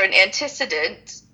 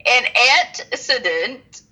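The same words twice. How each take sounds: First: Said in the usual way. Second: "antecedent" drawn out slowly in separated pieces; slow, careful pronunciation. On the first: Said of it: "You tried to say it too fast". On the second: Shown as a demonstration. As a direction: sound out "antecedent" with deliberate pauses. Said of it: "I had to say it slow".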